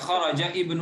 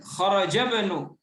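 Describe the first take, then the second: First: The i of ibnu is pronounced separately. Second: The i of ibnu is skipped and linked. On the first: The speaker calls it wrong. "Bacanya enggak kharaja ibnu enggak" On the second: The speaker calls it right.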